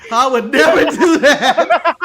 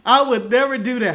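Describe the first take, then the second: First: Loud, slow, drawn-out protest through laughter; hammed-up outrage, cracking up; mock indignant refusal. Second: Said in the usual way. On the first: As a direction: overplay the refusal, higher and much louder. Joking mock refusal, repeated after price.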